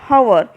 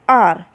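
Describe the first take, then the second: First: The word begins with an H sound. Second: The word begins with a vowel sound. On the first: The speaker calls it wrong. "we do not call hour" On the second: The speaker calls it right. "we call R. So when we call R, we can hear the word A"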